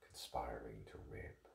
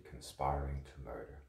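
First: Whisper. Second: Said in the usual way. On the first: Acted. Actor voicing dark theories.

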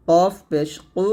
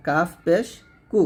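First: কু thickened from the back; heavy Q. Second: Light কাফ and কু; thin K. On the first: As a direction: push কফ and কু far back. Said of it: "কফটা মোটো হবে". (মোটা করে কু) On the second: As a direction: keep কু thin. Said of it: "কাফ পাতলা". (পাতলা করে কু) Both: Shown as a demonstration.

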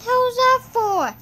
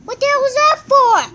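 First: Said in the usual way. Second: Much higher, louder and fast yell; high angry yell; high indignant shout. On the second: Real, not acted. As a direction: yell it in disbelief.

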